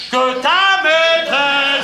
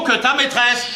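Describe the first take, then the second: First: Very slow, drawn-out declamatory cry; shouting. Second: Said in the usual way. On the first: Acted. Husband broadcasting his brother's affair, shouting slowly. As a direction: proclaim it, stretching every syllable. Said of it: "Mais pourquoi tu cries?".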